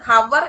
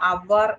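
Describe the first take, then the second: First: The word begins with an h sound. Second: The word begins with a vowel sound. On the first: The speaker calls it wrong. "ആ pronunciation തെറ്റാണ്" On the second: The speaker calls it right. "എച്ച് O U ആറിനെ നമ്മൾ വായിക്കേണ്ടത് എങ്ങനെയാണ്? അവർ എന്നാണ്"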